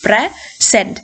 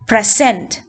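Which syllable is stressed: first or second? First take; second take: first; second. First: The stress is on the first syllable. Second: The stress is on the second syllable. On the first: It is used as a noun. "In most two syllable nouns first syllable ആയിരിക്കും stressed" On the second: It is used as a verb. "two syllable verbs ആണെങ്കിൽ the stress will fall on the second syllable"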